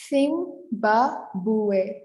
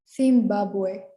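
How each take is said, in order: First: "Zimbabwe" slowly as theem-ba-bweh, Spanish style; "Zimbabwe" drawn out for learners in Castilian Spanish; syllable by syllable. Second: "Zimbabwe" run together as theem-BA-bweh; "Zimbabwe" as one connected Spanish word; Spanish pronunciation. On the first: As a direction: break "Zimbabwe" into separate syllables, Z as th. Teacher models Spanish name syllable-wise. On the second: Same name again, run together. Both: Shown as a demonstration.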